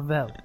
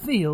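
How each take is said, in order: First: The name has a short 'e' vowel. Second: The name has a long 'ee' vowel. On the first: The speaker calls it right. "or Vel? It's Vel" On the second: The speaker calls it wrong. "Like Veal, I'm not a baby cow"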